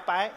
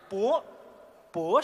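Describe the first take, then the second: First: The syllable is said as bai. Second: The syllable is said as bo. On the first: This is the everyday pronunciation. "白不叫白" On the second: This is the stage opera pronunciation. "那叫 博蛇传"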